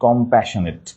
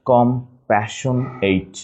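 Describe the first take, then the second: First: Said in the usual way. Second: Slow "compassionate" as com, passion, ate; broken into syllables. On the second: Shown as a demonstration. Teacher showing spelling, "compassionate" slowly in pieces. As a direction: break "compassionate" apart, full "ate" ending. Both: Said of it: "just একটু ভেঙে নিব".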